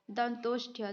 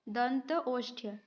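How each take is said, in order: First: Said in the usual way. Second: दंत ओष्ठ्य said slowly as two separate words, a pause between दंत and ओष्ठ्य; split into parts. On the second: Shown as a demonstration. Teacher spelling out दंत ओष्ठ्य for students, slow and split. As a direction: break दंत ओष्ठ्य apart slowly, part by part.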